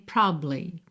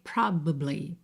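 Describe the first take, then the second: First: The middle syllable is dropped, giving two syllables. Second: The word is said with three syllables. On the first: "a possibilidade de simplesmente comer a sílaba do meio" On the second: "se você quiser falar as três sílabas, você tem probably"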